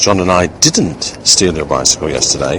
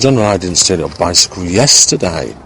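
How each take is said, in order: First: The word didn't is stressed. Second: The word yesterday is stressed. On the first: The act is completely denied. "a plain emphasis on the word that demonstrates the meaning of the sentence, which is a complete denial of the act" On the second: The stealing happened on another day. "by underlining, seeing that yesterday was the, in a sense, the only day"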